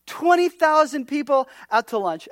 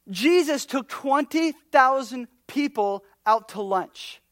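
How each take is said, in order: First: Twenty punched louder and higher; stress on Twenty. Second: Slow, drawn out. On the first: Preacher to congregation, punching Twenty loud. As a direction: hit Twenty hard, the whole line raised. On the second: Preacher telling the congregation, slow and deliberate. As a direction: slowly lay out the fact, letting it sink in. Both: Shown as a demonstration.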